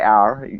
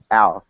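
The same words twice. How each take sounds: First: It is said with a hard American R. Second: It is said the Australian way without R.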